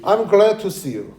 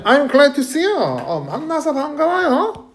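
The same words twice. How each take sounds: First: Said in the usual way. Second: High-pitched, acted delight; glad greeting. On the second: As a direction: greet someone as if pleased to meet them. (반가운 척 높은 목소리로)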